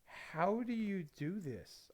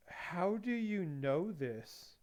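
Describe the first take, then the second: First: Drawn-out, slow mock amazement, softer; slow amazed question. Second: Drawn-out, slow mock amazement, a bit softer; slow amazed question. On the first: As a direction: stretch it out, stunned and impressed. Coworkers amazed again. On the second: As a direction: stretch each word like a stunned coworker. Coworkers amazed at hobby.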